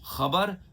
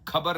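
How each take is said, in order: First: It begins with a raspy throat fricative sound. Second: It begins with a plain aspirated k sound. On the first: The speaker calls it right. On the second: The speaker calls it wrong.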